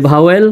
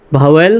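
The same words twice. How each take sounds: The two takes are said the same way.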